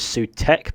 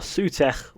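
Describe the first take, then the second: First: The name is said without a rolled sound. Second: The name is said with a rolled sound. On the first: "otherwise I will fail to roll and it will sound messy" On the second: "I've pronounced it right once"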